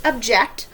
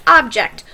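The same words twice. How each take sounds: First: "object" with ob-JECT stress as the verb; noun vs verb stress. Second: "object" stressed on the first syllable, OB-ject; the noun "object", OB-ject. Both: Shown as a demonstration. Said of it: "Notice I pronounced them different".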